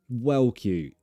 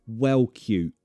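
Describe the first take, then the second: No difference in how they are said.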